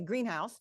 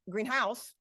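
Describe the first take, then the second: First: The stress is on the first syllable. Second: The stress is on the second syllable. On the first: The speaker calls it right. "I do put more stress on the green" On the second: The speaker calls it wrong. "I don't say greenhouse"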